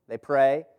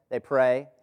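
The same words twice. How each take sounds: The two takes are said the same way.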